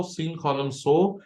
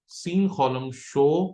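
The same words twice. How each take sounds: First: سین خولم سو with the last syllable a clean "so" from samekh; carefully fix it to سو; corrected reading. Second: سین خولم شو with the last syllable read as "sho", like shin; mistaken reading. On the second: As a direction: slip and say شو instead of سو. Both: Shown as a demonstration. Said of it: "نہیں، س".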